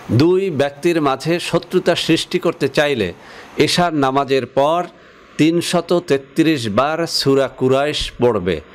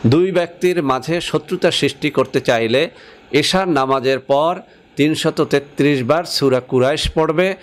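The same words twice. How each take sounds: No difference in how they are said.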